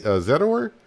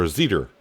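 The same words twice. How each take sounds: First: Zetor with a rising, questioning end; unsure pronunciation. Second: Zetor with pitch peaking, then falling; alternative pronunciation. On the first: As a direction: try out Zetor, pitch climbing at the end. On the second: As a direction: offer Zetor as the other option, ending low. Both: Shown as a demonstration. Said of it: "I don't know how to pronounce it".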